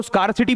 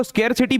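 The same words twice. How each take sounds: First: First syllable of स्कार्सिटी rhymes with 'car'; 'skaar' pronunciation. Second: First syllable of स्केरसिटी rhymes with 'air'; 'skair' pronunciation. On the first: Teacher showing the other accepted way, स्कार्सिटी said as skaar-si-ti. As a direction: say स्कार्सिटी with a long 'aa', skaar-si-ti. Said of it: "कई लोग इसको स्कार्सिटी भी बोलते हैं". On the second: Teacher showing one accepted way, स्केरसिटी said as skair-si-ti. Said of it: "कई लोग इसको स्केरसिटी भी बोलते हैं". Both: Shown as a demonstration.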